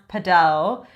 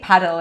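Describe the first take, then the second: First: It is said with the original Spanish pronunciation. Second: It is said with the English pronunciation. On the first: The speaker is trying to sound fancy. The speaker calls it wrong. "Originally, it's pronounced padel" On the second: This is how most English speakers say it. The speaker calls it right. "I think paddle is what you're supposed"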